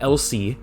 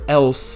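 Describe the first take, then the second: First: The word has two syllables, ending in an ee sound. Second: The word has one syllable, ending in an s sound. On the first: "You don't say that Elsie" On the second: "you don't say the word else"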